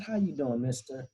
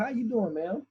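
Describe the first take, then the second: First: Softer grandma answering back; grandma replying. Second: Higher, friendly manager greeting; cheery manager. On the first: Grandmother answers the manager, quiet and sweet. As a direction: return the greeting sweetly and quietly. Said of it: "She said". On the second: Restaurant manager greets the grandmother, lightly voiced higher. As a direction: greet her like a polite manager. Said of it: "the manager comes over and says". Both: Retold or imitated.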